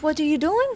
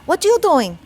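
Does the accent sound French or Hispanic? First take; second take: French; Hispanic. First: It is said with a French-sounding accent. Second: It is said with a Hispanic accent. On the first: "maybe that sounded French" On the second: "That's an impression of my mom"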